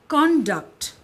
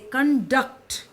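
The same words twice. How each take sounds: First: The stress is on the first syllable. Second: The stress is on the second syllable. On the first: It means behavior. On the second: It means to lead, as a meeting.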